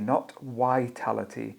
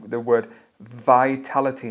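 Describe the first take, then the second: First: The word begins with a w-like sound. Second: The word begins with a clear v sound. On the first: The speaker calls it wrong. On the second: The speaker calls it right. "You got to focus on your v"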